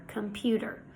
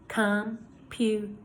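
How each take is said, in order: First: Said in the usual way. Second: "Computer" in three slow beats, gaps between; syllable by syllable. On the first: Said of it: "Let's try a few words like this". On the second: Shown as a demonstration. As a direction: break "Computer" apart as com, pu, ter. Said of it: "when you say the word, your jaw drops".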